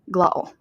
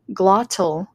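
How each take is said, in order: First: It is said with a Scottish glottal stop. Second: It is said in an American accent. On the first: "a Scots person would probably say glottal" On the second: "like I would in American English"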